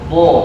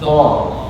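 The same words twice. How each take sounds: First: The vowel is said with rounded, pushed-out lips. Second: The vowel is said with an open mouth. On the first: The speaker calls it wrong. "bukan bo, bukan monyong" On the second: The speaker calls it right. "tapi bo di muka"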